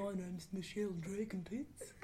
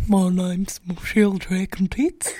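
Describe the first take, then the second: First: Soft, slightly lowered put-on character voice; Michelle. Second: Loud, low, slow put-on character voice; Michelle. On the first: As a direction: introduce the character quietly, half laughing. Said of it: "What if we had Michelle?". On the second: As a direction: belt out a drawn-out character introduction. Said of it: "Michelle's, like, the most advanced".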